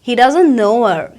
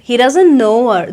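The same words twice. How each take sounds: First: The words are contracted and linked together. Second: The words are contracted and linked together.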